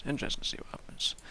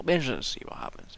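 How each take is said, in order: First: Quick, breathy whispered repeat. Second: Said in the usual way. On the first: Shown as a demonstration. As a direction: whisper it fast to yourself.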